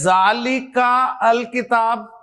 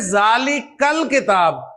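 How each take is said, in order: First: The vowel and 'al' are said as separate parts. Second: The words run together as 'dhalikal kitab'. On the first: The speaker calls it wrong. "ऐसे तो नहीं पढ़ेंगे ना" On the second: The speaker calls it right. "मिलाकर पढ़ेंगे"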